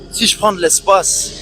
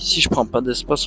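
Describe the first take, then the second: First: It is said in a loud, confident voice. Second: It is said in a quiet, low voice.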